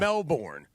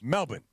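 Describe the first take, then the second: First: The name is said the way outsiders say it. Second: The name is said the way locals say it. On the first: The speaker calls it wrong. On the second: The speaker calls it right. "That's how you say it"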